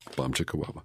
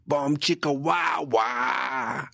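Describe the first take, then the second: First: It is said in a normal speaking pitch. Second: It is said in a much higher pitch.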